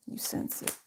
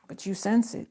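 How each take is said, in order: First: Whisper. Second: Said in the usual way. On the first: Shown as a demonstration. Repeats the phrase in a whisper.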